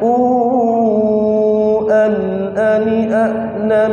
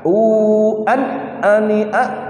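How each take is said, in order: First: It flows smoothly with no hum, bounce or break. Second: There is a brief break inside the phrase. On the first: The speaker calls it right. "Jadi ngeten lemes lemes" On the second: The speaker calls it wrong. "Ada unsur sakta"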